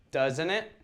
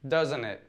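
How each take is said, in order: First: The pitch rises at the end. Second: The pitch falls at the end. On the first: It is a real question; the answer is unknown. "if the question tag goes up" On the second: The answer is expected; it seeks only confirmation. "if the intonation goes down"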